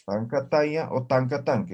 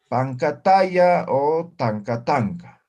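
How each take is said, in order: First: Said in the usual way. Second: Pancataya o tancatanca said slowly, each syllable clear and a little louder; teacher spells out Pancataya o tancatanca slowly for the class to repeat; slow model pronunciation. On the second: Shown as a demonstration. Teacher modelling the Quechua names for students, slow and clear. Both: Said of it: "¿sí?".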